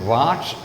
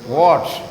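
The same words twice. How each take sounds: First: The vowel is an open 'ah' sound. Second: The vowel is a rounded 'o' sound. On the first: The speaker calls it wrong. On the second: The speaker calls it right.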